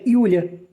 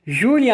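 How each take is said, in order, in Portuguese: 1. O nome começa com som de Y. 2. O nome começa com um J suave. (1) "se pronuncia Julia" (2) "Júlia em alemão"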